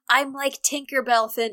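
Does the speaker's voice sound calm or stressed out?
calm. The line is said in a plain, calm voice. The speaker calls it wrong. "Nope, hold up"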